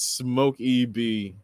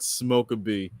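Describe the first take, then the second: First: The middle sound is a long ee. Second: The middle sound is a short uh. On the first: The speaker calls it right. "It's smoke E B" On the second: The speaker calls it wrong. "not smoke a B"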